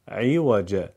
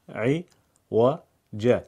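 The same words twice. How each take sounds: First: Said in the usual way. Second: "عوج" split very slowly into syllables. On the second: Shown as a demonstration. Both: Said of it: "هجا هجا بخونید".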